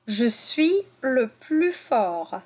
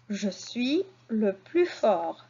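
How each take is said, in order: First: "Je suis le plus fort" said slowly; slow model sentence. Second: Slow repeat. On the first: Teacher models the sentence slowly for pupils. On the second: Teacher repeats the sentence slowly for the class. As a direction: repeat "Je suis le plus fort" slowly and gently. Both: Shown as a demonstration. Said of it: "À la fin du mot suis".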